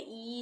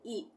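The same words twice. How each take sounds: First: The vowel is drawn out long. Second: The vowel is kept short. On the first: The speaker calls it wrong. "खींच के नहीं बोलेंगे, ई नहीं" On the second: The speaker calls it right. "ई होगा"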